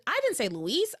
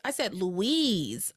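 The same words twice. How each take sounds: First: Said in the usual way. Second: "Louise" drawn out slowly, ending in a long z; corrective stress on Louise. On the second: Acted. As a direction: stretch "Louise" out as a pointed correction.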